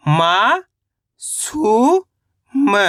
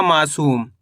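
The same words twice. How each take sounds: First: मा and सु stretched with rising pitch, then short म; sound by sound. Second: Said in the usual way. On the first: Shown as a demonstration. Teacher breaking a word down for learners, syllable by syllable. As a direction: chant मा ... सु ... म with pauses. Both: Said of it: "तो मिलके बन जाएगा".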